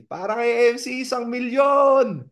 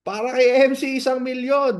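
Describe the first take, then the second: First: Higher, louder, last words stretched slowly into a shout; street cheer. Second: Higher, louder cheer; cheering call. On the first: Friends outside cheering the speaker with a long shout. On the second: Friends in the street cheering the speaker, loud. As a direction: hail him like a champion. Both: Retold or imitated.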